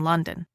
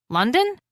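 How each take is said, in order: First: Said in the usual way. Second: London? with a sharp rising question; surprised question. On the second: A narrator's reading. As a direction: echo London? in startled disbelief.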